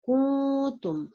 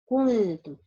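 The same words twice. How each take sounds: First: The first vowel is stretched long. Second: The first vowel is kept short. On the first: It sounds as if a long vowel follows the first letter. The speaker calls it wrong. "I read it uh, like stretching sound um, for wow" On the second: No long vowel follows the first letter. The speaker calls it right. "correct pronunciation it will be kuntum"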